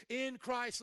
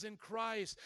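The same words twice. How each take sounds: First: "in" punched higher and louder in "in Christ"; stress on IN. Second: Said in the usual way. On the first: Shown as a demonstration. Preacher pointing listeners to the terminology, stress on "in". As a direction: lean hard on the word "in". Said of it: "listen to that terminology".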